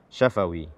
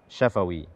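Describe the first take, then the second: No difference in how they are said.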